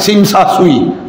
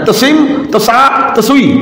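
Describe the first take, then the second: First: The T sound is dropped from each syllable. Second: Each syllable starts with a T sound. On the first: This is how the name is actually read. "Dibacanya T-nya hilang" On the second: This is how the name is written.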